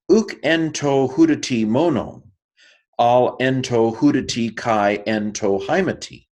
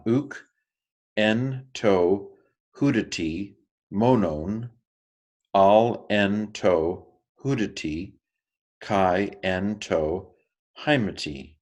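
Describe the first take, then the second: First: Higher, louder, flowing proclamation; public scripture reading. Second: Slow, deliberate Greek reading; slow careful reading. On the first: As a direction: read it out to the whole assembly. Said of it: "as if I was asked to stand up and read the scroll in a worship service". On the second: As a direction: read it slowly, phrase by phrase. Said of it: "And here's mine". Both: Shown as a demonstration.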